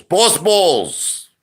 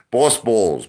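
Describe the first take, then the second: First: Higher, louder, in a put-on voice; hyped-up put-on yell. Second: Said in the usual way. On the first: Streamer hyping his chat with the catchphrase, hyped yell. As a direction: blast the catchphrase like a hype man. Repeats catchphrase, second time bigger.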